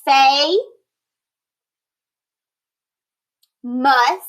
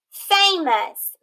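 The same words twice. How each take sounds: First: FA, then MUS, split apart; syllables pulled apart. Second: Said in the usual way. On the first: Shown as a demonstration. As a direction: sound it out by syllable. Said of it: "split the word in between that vowel A and that consonant M". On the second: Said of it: "split the word".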